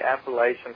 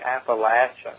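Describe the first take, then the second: First: It uses the pronunciation outsiders to the area use. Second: It uses the pronunciation people from the area use. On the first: The speaker comes from outside the region. The speaker calls it wrong. "don't say Appalachian" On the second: The speaker fits in with locals in the region. The speaker calls it right. "Say Appalachian"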